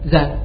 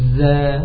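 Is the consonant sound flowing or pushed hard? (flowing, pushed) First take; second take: pushed; flowing. First: The consonant sound is pushed hard and forced. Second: The consonant sound flows out with continuous air. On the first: The speaker calls it wrong. "Dikuatkan juga gak bisa" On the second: The speaker calls it right. "Mengalirkan suaranya"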